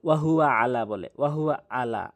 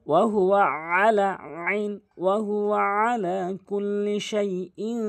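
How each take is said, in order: First: "আলা" with a plain hamza instead of ain; common mispronunciation. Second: "আলা" with ain from mid-throat; correct ain. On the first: Teacher shows the common mistake, "আলা" with hamza. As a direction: say "আলা" with a light glottal onset, no throat squeeze. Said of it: "এই হামজাটা এনে উচ্চারণ করে". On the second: Teacher models correct recitation, "আলা" with throaty ain. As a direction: chant it higher, squeezing the ain of "আলা" from the middle of the throat. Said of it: "আইনটি হলকের মাঝখান থেকে উচ্চারণ করতে হবে". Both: Shown as a demonstration.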